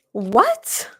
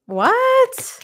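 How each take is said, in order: First: Said in the usual way. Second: High, shocked "What?". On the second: Real, not acted. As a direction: gasp it out in disbelief. Shocked at the cards.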